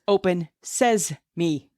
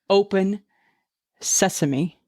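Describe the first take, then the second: First: The ending sounds like the two words says me. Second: The ending sounds like the single word sesame. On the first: The speaker calls it right. "The phrase is open says me" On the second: The speaker calls it wrong. "the phrase is not open sesame"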